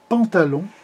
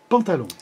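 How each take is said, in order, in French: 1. Le mot est prononcé plus lentement. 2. Le mot est prononcé plus vite.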